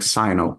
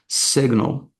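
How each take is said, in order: First: Long 'eye' vowel first, with no g sound. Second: Short 'i' vowel first, with a g sound. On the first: The speaker calls it wrong. "you're kind of saying the the I as an I, and you're not pronouncing the G" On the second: The speaker calls it right. "we are gonna want to say it, to say it as signal"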